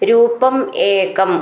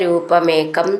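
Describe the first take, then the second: First: The two words are said as separate words. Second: The two words are run together as one.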